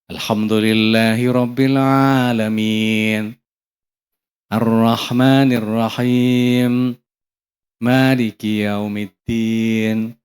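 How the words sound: There is a pause after each verse. The speaker calls it right. "Ada jeda"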